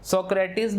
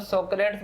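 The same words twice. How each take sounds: First: सोक्रेटिस with a separate last syllable, -tis; variant pronunciation. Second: सोक्रेट्स in two syllables, ending in a -ts cluster; common pronunciation. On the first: Teacher contrasting name pronunciations for students, सोक्रेटिस in three syllables. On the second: Teacher contrasting name pronunciations for students, सोक्रेट्स ending in -ts. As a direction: say सोक्रेट्स as so-krets, no final vowel. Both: Shown as a demonstration. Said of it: "कई तरीके से pronounce करते हैं".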